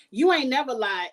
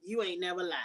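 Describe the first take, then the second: First: Emphatic agreement. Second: Soft echo. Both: Real, not acted.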